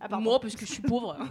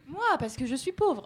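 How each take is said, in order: First: It is said in a northern ch'ti accent. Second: It is said in a plain accent.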